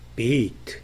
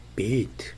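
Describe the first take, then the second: No difference in how they are said.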